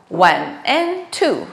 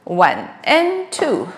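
The two takes are said the same way.

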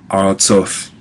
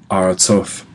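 The two takes are said the same way.

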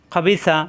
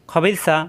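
The two takes are said the same way.

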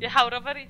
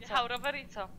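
First: Louder taunting repeat, stress on Jechał; mocking echo. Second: Softer, dropping repeat, stress on Jechał; quieter echo. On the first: Taunting him by repeating his excuse, mocking. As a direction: throw his words back at him. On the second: Repeating his excuse again to herself, dry and quieter. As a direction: let it fall away dryly. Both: Real, not acted.

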